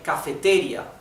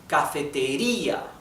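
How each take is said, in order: First: The stress falls on a syllable other than ri. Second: The stress falls on the ri syllable. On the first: The speaker calls it wrong. "We don't say cafeteria" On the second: The speaker calls it right. "We say cafeteria, right? So the intonation is in letter I"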